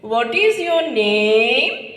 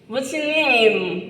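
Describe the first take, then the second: First: It is said in a Gujarati English accent. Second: It is said in a nasal American accent.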